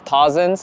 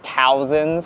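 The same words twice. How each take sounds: First: The first syllable sounds like 'taws', rhyming with paws. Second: The first syllable sounds like 'tow', rhyming with cows. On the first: The speaker calls it right. "So it's like Taws" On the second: The speaker calls it wrong. "not Towsons"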